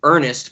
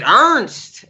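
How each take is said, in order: First: Said in the usual way. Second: "Ernst" squeezed into one syllable; Ernest's own pronunciation. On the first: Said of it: "but he would pronounce it Ernst". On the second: Shown as a demonstration. Co-host showing how the character says his name, squashed pronunciation "Ernst". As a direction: say "Ernst", dropping the middle vowel of Ernest. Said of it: "he would pronounce it Ernst".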